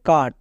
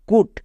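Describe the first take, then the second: First: The vowel is an open 'uh' sound. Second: The vowel is a rounded 'oo' sound. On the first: The speaker calls it right. "C U T কী হবে? কাট।" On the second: The speaker calls it wrong. "না"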